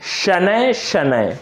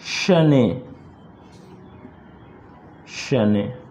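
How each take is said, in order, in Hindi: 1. हर शब्द 'ay' glide से खत्म होता है। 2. हर शब्द सादे 'e' स्वर से खत्म होता है। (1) "यह सही उच्चारण है" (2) "देखिए कैसे उच्चारण ये गलत है"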